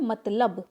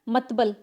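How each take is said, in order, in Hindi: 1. l की ध्वनि b की ध्वनि से पहले आती है। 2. b की ध्वनि l की ध्वनि से पहले आती है। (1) "मगर एक्चुअल में होता क्या है? मतलब" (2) "कुछ लोग बोलते हैं मतबल"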